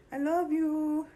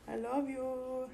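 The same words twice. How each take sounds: First: High gushing I love you. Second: Slow soft I love you; soft drawn-out love. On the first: Owner gushing high-pitched at her cat. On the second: Owner crooning slowly to her cat. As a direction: stretch it out gently. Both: Real, not acted.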